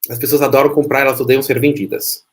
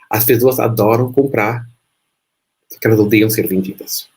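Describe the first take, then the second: First: It is said very fast. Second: It is said more slowly.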